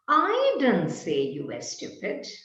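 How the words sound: The stress falls on the word I. Someone else said it. "perhaps there was someone else who said you were stupid, but I didn't"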